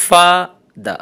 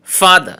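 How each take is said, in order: First: Father split into two syllables with a pause. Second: Said in the usual way. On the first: Shown as a demonstration. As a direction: say father in two separate beats. (father দুই সিলেবলে ভেঙে থেমে থেমে) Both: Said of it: "disyllabic words".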